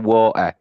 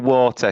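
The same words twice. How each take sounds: First: The T is dropped, northern English style. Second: The T in the middle is clearly pronounced.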